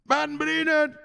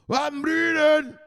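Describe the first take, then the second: First: High call of a name. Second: High drawn-out call of a name. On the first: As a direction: sing out the name. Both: Real, not acted. Calling out a friend's name.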